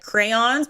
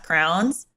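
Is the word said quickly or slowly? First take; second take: slowly; quickly. First: The word is said slowly with full vowels. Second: The word is said fast, sounding like crowns. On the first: "like crayons" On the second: "but then you say it fast"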